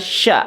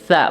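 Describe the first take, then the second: First: It starts with an sh sound. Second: It starts with a lisped th sound. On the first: The speaker calls it wrong. "bukan sya" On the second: The speaker calls it right. "ujung lidah ya disentuhkan dengan ujung gigi seri sa"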